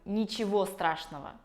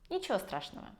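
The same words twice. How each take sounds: First: Every sound of 'ничего' is clearly pronounced. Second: 'Ничего' is reduced, its final o barely heard. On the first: The speaker calls it wrong. "Я не говорю" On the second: The speaker calls it right. "Я говорю; О в конце практически не слышно, но она там есть"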